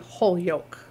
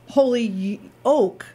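First: It sounds like 'whole yolk'. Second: It sounds like 'holy oak'. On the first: It refers to a whole egg yolk. "if you're hungry, you might want to say Holyoke" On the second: It refers to a holy oak tree. "Holyoke is a tree, which is holy"

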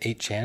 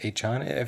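First: The number is read with the English word eight. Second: The number is read with the Japanese word hachi. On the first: The speaker calls it wrong. "I just said 8chan" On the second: The speaker calls it right. "It's probably 8chan, like Romanji style"

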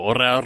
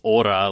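First: It is said as the English word aura. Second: It is said as the Japanese kana reading, 'o-ra'. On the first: "similar to aura" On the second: "the kana that they showed is aura, like O-R-A"

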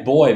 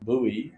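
First: It is said the speaker's own way, "boy". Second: It is said the American way, "boo-ee".

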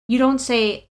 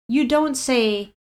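The two takes are said the same way.

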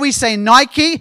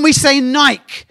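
First: The word is said with an American pronunciation. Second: The word is said with an English pronunciation. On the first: "In America" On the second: "In England"

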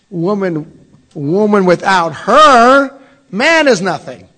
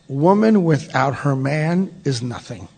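First: A pause comes after 'woman'. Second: No pause comes after 'woman'. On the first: Without a woman, a man is nothing. "but you can read it differently" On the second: A woman is nothing without her man. "this is a statement that reads as follows"

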